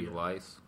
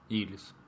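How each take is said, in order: First: The second vowel sounds like 'ai'. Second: The second vowel sounds like 'ee'. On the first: The speaker calls it wrong. "Или Илайс" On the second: The speaker calls it right. "Я думаю, Илис"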